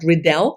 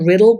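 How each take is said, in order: First: The stress is on the second syllable. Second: The stress is on the first syllable. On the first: The speaker calls it right. "I think that's how you stress the name" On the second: The speaker calls it wrong. "not Riddle"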